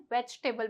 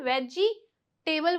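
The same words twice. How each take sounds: First: "वेजिटेबल" as vech-tebul, middle i dropped; "वेजिटेबल" softly, with ch straight into t; correct pronunciation. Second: "वेजिटेबल" slowly as veji-table; "वेजिटेबल" drawn out into veji and table; mispronunciation. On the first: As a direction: squeeze "वेजिटेबल" to three beats. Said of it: "इसे वेजिटेबल बोलेंगे". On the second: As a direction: sound a full i after j in "वेजिटेबल". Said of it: "जो कि गलत है". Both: Shown as a demonstration.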